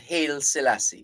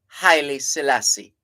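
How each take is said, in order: First: The first name is said with one syllable. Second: The first name is said with two syllables. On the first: The speaker calls it wrong. "We have a tendency to pretty it up and say Hail Selassie" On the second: The speaker calls it right. "That's the correct pronunciation"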